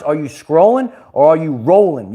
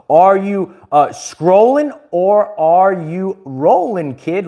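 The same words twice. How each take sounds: First: Said in the usual way. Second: Slow, drawn-out catchphrase voice; catchphrase delivery. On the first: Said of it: "Let us know in the comments". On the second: Retold or imitated. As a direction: stretch it out like a signature line. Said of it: "one of my famous quotes".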